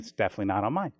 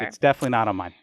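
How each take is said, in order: First: The tone sounds light and friendly. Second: The tone sounds sharp and hostile. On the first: The speaker is simply stating a fact. The speaker calls it right. "did that tone of voice help convey my?" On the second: The speaker seems annoyed by the choice. The speaker calls it wrong. "I didn't mean to sound so hostile about it"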